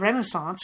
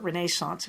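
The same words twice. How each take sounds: First: It is said with an American pronunciation. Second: It is said with a British pronunciation.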